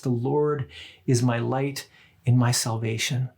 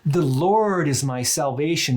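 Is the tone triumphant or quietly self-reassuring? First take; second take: self-reassuring; triumphant. First: It sounds like fearful, reassuring self-talk. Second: It sounds confident and triumphant, without fear.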